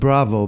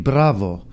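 First: The name is said with a plain English r. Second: The name is said with a rolled Spanish r. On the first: The speaker calls it wrong. "not Bravo, because it won't work" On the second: The speaker calls it right. "It's got to be Bravo"

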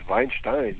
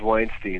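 First: The name is said the West Coast way. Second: The name is said the East Coast way. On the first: "On the West Coast, everybody says Weinstein" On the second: "on the East Coast, everybody says Weinstein"

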